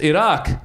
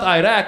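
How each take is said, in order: First: The name is said with its native pronunciation. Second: The name is said with an Americanized pronunciation. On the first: The speaker calls it right. "it's Iraq" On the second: The speaker calls it wrong. "at least pronounce it right. It's not Iraq"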